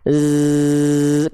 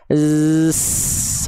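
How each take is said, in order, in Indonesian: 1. Desisan bergetar bersuara tanpa nafas yang keluar. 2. Desisan berhembus dengan udara yang bocor keluar. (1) "Za itu mengalir desis tanpa nafas" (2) "kalau keluar nafasnya jadinya gini"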